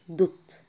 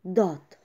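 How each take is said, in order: First: The vowel is long and rounded. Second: The vowel is short and open. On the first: The speaker calls it wrong. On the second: The speaker calls it right.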